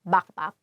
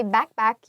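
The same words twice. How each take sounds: First: "backpack" with open ah vowels, bahk-pahk; Filipino pronunciation. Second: Said in the usual way. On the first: Shown as a demonstration. Teacher summing up for learners, "backpack" the Filipino way as bahk-pahk. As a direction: swap both vowels of "backpack" for ah. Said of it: "you say backpack". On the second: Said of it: "if you wanna say backpack".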